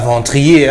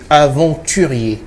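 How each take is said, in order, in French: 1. Le mot est raccourci, ses premières syllabes sont omises. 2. Le mot est prononcé en entier, toutes les syllabes sont présentes. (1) "ce n'est pas la bonne prononciation" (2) "C'est aventurier"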